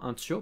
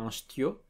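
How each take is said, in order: First: The word starts with a plain t sound. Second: The word starts with an s before the t. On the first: The speaker calls it right. "en ch'ti on dit bien tio pour un petit" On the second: The speaker calls it wrong. "Un stio, c'est une déformation assez parisienne du mot tio"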